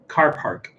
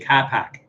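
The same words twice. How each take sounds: First: The R sounds are pronounced in both words. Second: The R sounds are dropped, Boston style. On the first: "if you're saying like like uh, car park" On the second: "you'd say car park"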